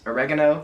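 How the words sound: It is said the American way. "as we say in the U S"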